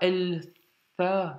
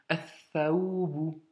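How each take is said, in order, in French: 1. Le L de l'article se prononce clairement. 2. Le L est muet, fondu dans la consonne suivante. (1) "C'est pas el tha" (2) "on n'entend pas le lem"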